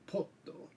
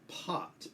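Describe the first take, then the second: First: The word ends with an added o vowel. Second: The word ends on a plain t sound. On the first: "but the Japanese say potto" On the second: "the word pot"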